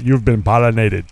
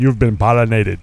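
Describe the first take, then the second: First: It is said in a put-on Austrian-accented voice. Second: The same.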